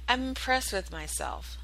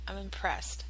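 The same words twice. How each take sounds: First: Said in the usual way. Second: Much softer, murmured to herself; quiet, smug aside. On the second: Real, not acted. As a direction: drop the volume and savor it privately. Repeats praise of herself.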